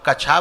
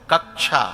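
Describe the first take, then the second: First: A single k glides straight into a chha sound. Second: A doubled k sound comes before the sha. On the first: The speaker calls it wrong. "तो कछा बोलना चाहिए" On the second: The speaker calls it right. "जब कक्षा हम बोल रहे हैं तो उसमें एक का और है"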